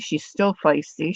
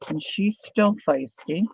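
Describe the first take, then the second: First: Said in the usual way. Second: Slow, with still lifted and stretched; stress on still. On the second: Real, not acted. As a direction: lean into still, slowly. Repeating for emphasis.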